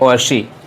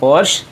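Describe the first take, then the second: First: The word ends on an 'ee' vowel. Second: The word ends on a bare 'sh' sound. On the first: "कुछ लोग पढ़ते हैं पोर्शी" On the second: "normally पढ़ते हैं पोर्श"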